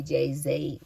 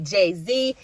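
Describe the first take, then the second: First: "Jay-Z" slipped into "Jay-Zay"; second syllable of "Jay-Z" rhymes with "say"; name mispronounced. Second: "Jay-Z" ending in a clear "zee"; second syllable of "Jay-Z" rhymes with "see"; corrected name. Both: Real, not acted. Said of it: "couldn't even say his name right".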